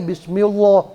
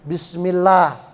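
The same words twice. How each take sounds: First: The l is heavy and full. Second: The l is light and thin. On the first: The speaker calls it wrong. "Nggak boleh bismillah gitu ya. Nanti salah" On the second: The speaker calls it right. "Maka lafaz Allahnya bacanya la"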